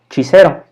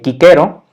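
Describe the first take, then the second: First: The word begins with a ch sound. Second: The word begins with a hard k sound. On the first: "de la fonética italiana, que sería"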